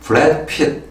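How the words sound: It is said with an American accent. "미국식 본토 발음으로 하면은"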